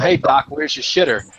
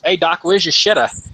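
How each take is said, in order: First: It is said in his own normal voice. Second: It is said in the soldier's put-on voice.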